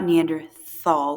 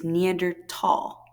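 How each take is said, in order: First: The spelled th is said as th. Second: The spelled th is said as a plain t. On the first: The speaker calls it wrong. "not Neanderthal with a th sound" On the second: The speaker calls it right. "the correct pronunciation is Neanderthal, like tall"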